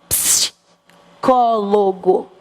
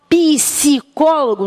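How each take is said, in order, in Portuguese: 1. O p e o s são falados juntos. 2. O p e o s estão separados por uma vogal. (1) "P S juntinhos fazem ps. Então eu digo psicólogo" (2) "Não tem psicólogo"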